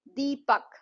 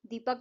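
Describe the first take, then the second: First: Deepak split into a long दी and a separate पक; syllable by syllable. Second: Said in the usual way. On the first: Shown as a demonstration. Teacher demonstrating two syllables in a name, split apart. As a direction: stretch दी, then land पक in Deepak. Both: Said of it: "दीपक में दो syllable हैं".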